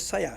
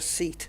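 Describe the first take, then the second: First: It is said with Spanish sounds, two syllables. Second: It is said like the English word seat. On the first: The speaker calls it right. "if it's a Spanish car like a Seat, it's a Seat" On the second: The speaker calls it wrong. "It's not a seat"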